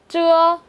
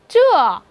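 First: The pitch stays high and level. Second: The pitch falls sharply from high to low.

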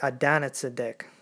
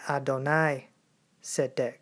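First: It is run together as one word. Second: It is said as two separate words. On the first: The speaker calls it wrong. "you did not say it Adonizedek. That's not how you say it" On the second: The speaker calls it right. "You say it Adonai Tzedek. It's composed of two words"

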